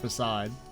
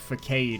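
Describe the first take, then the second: First: The word is pronounced the standard way. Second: The word is pronounced the way it is spelled. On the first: The speaker calls it right. "instead of facade" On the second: The speaker calls it wrong. "I called it facade because that's the way it's fucking spelled"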